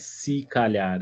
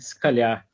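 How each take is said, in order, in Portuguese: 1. A vogal em 'se' é pronunciada por completo. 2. A vogal em 'se' é omitida. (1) "não é se calhar" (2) "Porque não tem o, o é do si"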